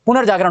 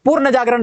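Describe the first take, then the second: First: पुनर्जागरण begun as pu-nar; corrected punar. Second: पूर्ण जागरण begun as poor-na; mistaken purna. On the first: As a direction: say पुनर्जागरण with short u, then nar. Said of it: "होता है". (पुनर्जागरण, पुनर् से शुरू) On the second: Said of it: "नहीं होता". (पूर्ण जागरण, पूर्ण से शुरू) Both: Shown as a demonstration.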